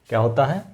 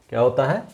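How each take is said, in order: No difference in how they are said.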